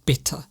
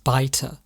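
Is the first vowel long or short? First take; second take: short; long. First: The first vowel is short, as in bit. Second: The first vowel is long, as in bite. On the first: The speaker calls it right. "short vowel sounds" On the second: The speaker calls it wrong. "someone might pronounce the word bitter as biter"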